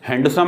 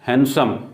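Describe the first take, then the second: First: The d sound is pronounced in the middle. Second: The d sound is left out entirely. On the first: The speaker calls it wrong. "ये हैंडसम नहीं है" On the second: The speaker calls it right. "डी यहां silent है"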